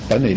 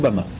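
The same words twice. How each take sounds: First: The final vowel is a short 'eh' sound. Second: The final vowel is an open 'ah' sound. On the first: The speaker calls it right. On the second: The speaker calls it wrong. "לא במה"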